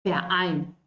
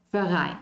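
First: Verein with a break before ein, fer-ein; glottal stop before vowel. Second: Verein slurred together as ferai, with no break; wrong linked pronunciation. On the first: Teacher demonstrating the correct German vowel onset. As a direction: restart the word at ein. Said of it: "Ahí yo empiezo, verein". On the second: Teacher demonstrating the wrong German linking to learners. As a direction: run verein together, no glottal stop. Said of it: "Y no es verein". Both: Shown as a demonstration.

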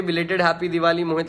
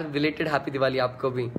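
First: Said in the usual way. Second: Softer and slower "belated happy Diwali" as a sincere thank-you; soft slow reply. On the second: Real, not acted. Singer wishing a fan back, soft and unhurried. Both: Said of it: "lots of love to you too छवि शर्मा यार".

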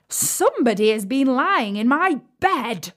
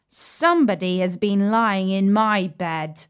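First: Raised, emphatic gruff bear voice; rough gruff bear. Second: Moderate bear voice, near the narrator's own; lightly voiced middle-sized bear. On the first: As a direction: roar it roughly as the great huge bear. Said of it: "in his great rough, gruff voice". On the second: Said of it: "in his middle voice". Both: A narrator's reading.

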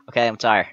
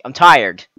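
First: Said in the usual way. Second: A loud, exasperated announcement; loud groan. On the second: Real, not acted. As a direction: blurt it out loud. Loud outburst about being tired.

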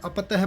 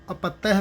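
First: ਅਪਤਹਿ with a light, quick ਤ; mistaken reading demo. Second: ਅਪਤਹਿ with a firm, held ਤ; correct reading demo. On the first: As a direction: pass lightly over the ਤ in ਅਪਤਹਿ. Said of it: "ਅਪਤਹਿ ਪਾਠ ਨਹੀਂ ਕਰਨਾ". (ਅਪਤਹਿ ਵਿੱਚ ਹਲਕਾ ਤ) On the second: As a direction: lean on the ਤ in ਅਪਤਹਿ. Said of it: "ਅਪਤਹਿ ਪਾਠ ਕਰਨਾ ਹੈ". (ਅਪਤਹਿ ਵਿੱਚ ਤ ਉੱਤੇ ਜ਼ੋਰ) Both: Shown as a demonstration.

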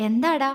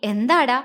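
First: Gentle, doting little question; affectionate. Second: Fond question through a smile; smiling. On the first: Man asking his beloved what's wrong, affectionately. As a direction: coax her fondly. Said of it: "വാത്സല്യത്തോടെ ചോദിച്ചു". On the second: Man asking his tearful beloved, smiling tenderly. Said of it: "പുഞ്ചിരിയോടെ ചോദിച്ചു". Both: Acted.

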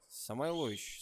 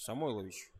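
First: "Самойлович" with the stress late, on ЛО; trying a pronunciation. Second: "Самойлович" with the stress on МОЙ; trying a pronunciation. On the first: Commentator unsure of a player's surname, trying it with late stress. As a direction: say "Самойлович" as Самайло́вич, first part unstressed. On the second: Commentator retries a player's surname, stressing МОЙ. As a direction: say "Само́йлович", low, stressed on the second syllable. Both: Shown as a demonstration. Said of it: "Как же правильно произносить?".

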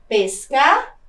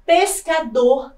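First: Pescador split, long pause before a held DOR; stress on final syllable. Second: Said in the usual way. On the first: Shown as a demonstration. Teacher shows an oxytone, Pescador broken before stressed DOR. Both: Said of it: "também é uma palavra oxítona".

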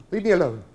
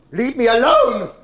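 First: Acted warning, held short of a full shout; contained, insistent anger; firm angry demand. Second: Much louder, higher, drawn-out yell; acted outraged roar; furious shout. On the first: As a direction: tell them firmly to back off. Mother's first demand, less forceful. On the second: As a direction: bellow it slowly to drive them off. Mother repeats it, escalating.

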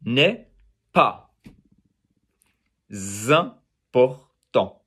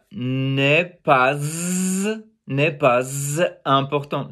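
First: "n'est pas important" split as n'est, pa, zim-por-tant; correct liaison. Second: "n'est pas important" with a long z closing "pas"; students' wrong liaison. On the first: Teacher correcting students, slow open syllables with z moved onward. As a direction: end "pas" on the vowel, start "important" with z. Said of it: "It's n'est". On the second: Teacher imitating beginner students, z stuck on "pas". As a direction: hang a buzzing z on "pas", then break before "important". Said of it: "they would say". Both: Shown as a demonstration.

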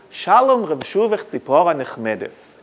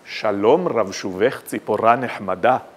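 First: Round, gentle Ashkenazi Hebrew, stressing early syllables; Ashkenazi accent. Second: Majestic Sephardi Hebrew, much lower, stress on final syllables; Sephardi accent. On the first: Speaker demonstrates Ashkenazi recitation of the poet's verse, Ashkenazi accent. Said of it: "in the Ashkenazi accent". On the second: Speaker recites the national poet's verse for contrast, majestic Sephardi accent. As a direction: intone it grandly in a deep Sephardi accent. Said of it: "if I recite it in the Sephardi accent". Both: Shown as a demonstration.

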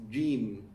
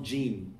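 First: "jim" with tongue pressed further back; correct jeem. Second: "jim" with an English front J; wrong jeem. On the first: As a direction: give "jim" its careful Arabic J. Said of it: "It's jim". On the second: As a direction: say "jim" with the J too far forward. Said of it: "It's not jim". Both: Shown as a demonstration.

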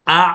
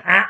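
First: "อะ" made from the middle of the throat; correct ain sound. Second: "อะ" the faulty way, as a short abrupt catch; wrong ain demo. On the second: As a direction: show the mistake: chop "อะ" off short. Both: Shown as a demonstration. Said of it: "อย่า อะ ไม่เอานะครับ".

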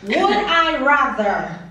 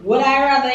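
First: Drawn-out. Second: Said in the usual way. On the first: Acted. Reading quiz options with suspense.

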